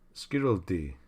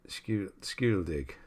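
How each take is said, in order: First: The name ends without any G sound. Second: The name ends with a pronounced G sound. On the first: The speaker calls it right. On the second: The speaker calls it wrong.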